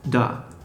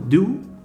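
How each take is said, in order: First: The vowel is reduced to a schwa. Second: The vowel is a full 'oo' sound.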